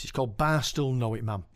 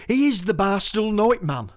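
First: Said in the usual way. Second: Raised, declaiming the title line; poem recital opening. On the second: Shown as a demonstration. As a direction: launch the poem with a bold first line.

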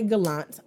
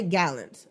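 First: "Gallant" said guh-LAHNT; "Gallant" in the French-like way, guh-LAHNT; second-syllable stress. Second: "Gallant" said GAL-unt; "Gallant" with a flat A, as in GAL-unt; first-syllable stress. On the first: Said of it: "I have heard people say". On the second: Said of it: "I say Gallant". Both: Shown as a demonstration.

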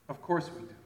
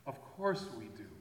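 First: Said in the usual way. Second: Softer, rueful repeat; a hushed, honest admission; quiet confession. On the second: Shown as a demonstration. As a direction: let it sink in quietly. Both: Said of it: "repeated admission".

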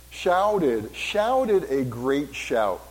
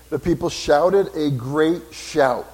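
First: "Shouted" leaned on hard, then "shouted a great shout" stretched out slowly; emphasis on shouted. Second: Said in the usual way. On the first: Shown as a demonstration. Pastor stressing the word to his congregation, slow and weighty. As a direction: dwell on the first syllable of "Shouted", drawn out slow. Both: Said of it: "put emphasis on that syllable".

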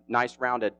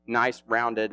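First: Drawn out, very slow; lingering slowly on nice rounded; slow emphasis. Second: Said in the usual way. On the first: Shown as a demonstration. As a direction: savor each word slowly. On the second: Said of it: "uh, nice rounded".

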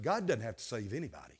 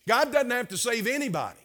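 First: Quick and hushed, dropped low; hushed, rushed confidence; low confiding aside. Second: "doesn't" stressed, higher and firmer; higher, firmer repeat with weight on "doesn't"; emphatic restatement. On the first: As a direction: let them in on a secret, softly. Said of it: "I wanna let you in on something". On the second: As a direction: drive the point home on "doesn't". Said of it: "Not a single soul". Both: Real, not acted.

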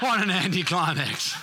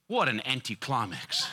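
First: Laughing, higher. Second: Amused. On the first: Preacher repeating the punchline to church, laughing higher. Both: Real, not acted.

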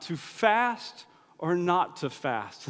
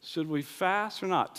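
First: Slow, dramatic Shakespearean musing; mock-theatrical Hamlet delivery, slow; Hamlet-style. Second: Said in the usual way. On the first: Shown as a demonstration. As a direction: ponder it like Hamlet on stage.

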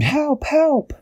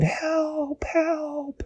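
First: Very high-pitched cry for help; story-time scream, high but held back in volume; mock scream. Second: Very high, soft, drawn-out wail; a small, high, faraway call for help; plaintive cry. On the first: Dashi almost inside the tree, high mock scream. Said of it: "She screamed". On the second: Dashi near the tree's mouth, soft high plaintive cry. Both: A narrator's reading.

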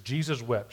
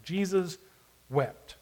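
First: Said in the usual way. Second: "Jesus" lifted, a long pause, then "wept." falling; split into two verses. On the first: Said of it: "And if you do the right version". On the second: Shown as a demonstration. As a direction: stretch "Jesus" up, stop, then drop "wept.". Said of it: "two verses".

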